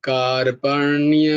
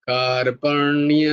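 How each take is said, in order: The two takes are said the same way.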